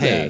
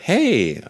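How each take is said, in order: First: The word is said flat, like a robot. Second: The word is said with lively, varied pitch. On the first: The speaker calls it wrong. "instead of" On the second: The speaker calls it right. "if they can just get inflections of people's voices"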